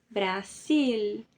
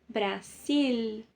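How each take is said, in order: The two takes are said the same way.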